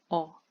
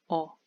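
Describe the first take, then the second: First: The vowel is cut short. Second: The vowel is cut short.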